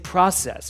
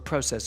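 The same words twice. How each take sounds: First: The word has a non-Canadian pronunciation. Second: The word has a Canadian pronunciation.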